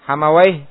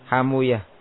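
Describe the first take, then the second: First: The name ends with the sound 'awaih'. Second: The name ends with the sound 'uyah'. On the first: This is the ordinary grammarians' form of the name. "Hamawai ya, dibaca apa?" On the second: This is the form the hadith scholars use. "dengan mensukun wawunya dan membomah apa yang sebelumnya dan memfathah apa yang setelahnya"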